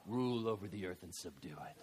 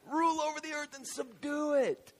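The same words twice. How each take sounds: First: Laughing low mutter. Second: Proud proclamation. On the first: Adam deep inside, chuckling. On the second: Proud declaration of command. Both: Acted.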